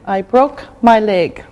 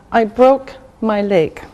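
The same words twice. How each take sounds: The two takes are said the same way.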